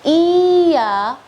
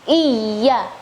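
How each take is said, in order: First: The vowel is lengthened with a single y. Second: The y sound is doubled and held. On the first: The speaker calls it wrong. "berarti di situ iyanya ya mad" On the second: The speaker calls it right. "seharusnya ya tasydid"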